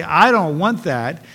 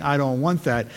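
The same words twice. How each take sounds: First: Slow, loud, drawn-out I don't want that; mock stubborn believer pushing God away; emphatic refusal. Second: Said in the usual way. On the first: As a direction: lean hard into the refusal.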